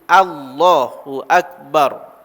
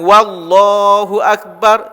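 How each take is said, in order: First: It begins directly with a vowel, no w. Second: A w sound is added before the first word. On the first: The speaker calls it right. "Mesti Allahu akbar" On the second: The speaker calls it wrong. "Jangan wallahu akbar"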